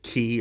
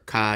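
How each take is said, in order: First: The word rhymes with 'see'. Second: The word rhymes with 'sky'. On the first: "I'm pretty sure it's key" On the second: "or Kai"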